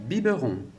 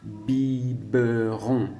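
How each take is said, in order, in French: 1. Les syllabes sont enchaînées rapidement. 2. Chaque syllabe est prononcée séparément et lentement. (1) "On parlera beaucoup plus vite. Et on enchaînera les syllabes" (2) "quand je te dis les syllabes"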